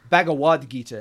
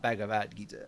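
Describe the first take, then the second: First: The middle consonant sounds like a w. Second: The middle consonant sounds like a v. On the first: The speaker calls it right. "A lot of the B's become W's. Like it's Bhagavad Gita" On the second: The speaker calls it wrong. "not Bhagavad Gita"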